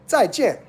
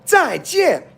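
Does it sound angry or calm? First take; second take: calm; angry. First: It is said gently, sounding calm. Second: It is said forcefully, sounding angry. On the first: "You don't have to say it that angry" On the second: "it's like you're angry"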